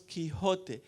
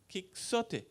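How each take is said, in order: First: The middle consonant is a breathy h sound. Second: The middle consonant is a ks sound. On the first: This is how it was said originally. The speaker calls it right. "Hacha aspirada" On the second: This is how an English reader says it. The speaker calls it wrong. "he will say X Quixote, which is wrong"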